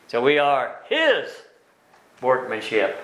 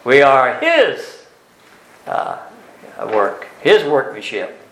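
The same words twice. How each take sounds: First: "His" gently stressed, a little slow; mild stress on His. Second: "His" loud and drawn out, very slow; strong stress on His. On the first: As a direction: lean lightly on "His". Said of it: "his in this verse is emphatic". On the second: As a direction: hit "His" hard and hold it. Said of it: "it's in the emphatic position". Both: Shown as a demonstration.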